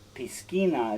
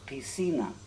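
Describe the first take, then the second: First: The c is said as a k sound. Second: The c is said as an s sound. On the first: The speaker calls it wrong. "which looks like piscina" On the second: The speaker calls it right. "it's an S sound in Spanish. So it's piscina"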